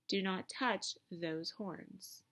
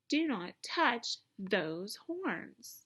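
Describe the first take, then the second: First: It is said calmly, without strong feeling. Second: It is said forcefully, with strong feeling.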